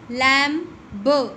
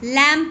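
First: A b sound is pronounced at the end. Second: No b sound is pronounced at the end. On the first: The speaker calls it wrong. "ये जो spelling है L A M बी" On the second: The speaker calls it right. "इसमें बी silent होता है, इसलिए हम इसको सिर्फ लैम पढ़ते हैं"

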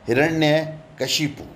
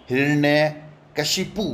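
No difference in how they are said.

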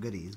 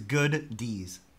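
First: It is said as one word, goodies. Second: It is said as two words, good dees. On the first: The speaker calls it wrong. "Not goodies" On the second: The speaker calls it right. "It's good D's"

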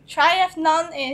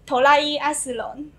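First: It is said with plain English sounds. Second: It is said with Japanese sounds, extra vowels added.

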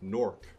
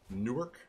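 First: It is said the New Jersey local way. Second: It is said the way outsiders say it. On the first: The speaker is from the New Jersey city. "which is how you pronounce Newark from New Jersey" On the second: The speaker is not from the city. "which is if you're not in Newark, that's how you pronounce it"

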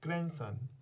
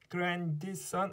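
First: The d sound is silent in the middle. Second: The d sound is pronounced in the middle. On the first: The speaker calls it right. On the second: The speaker calls it wrong.

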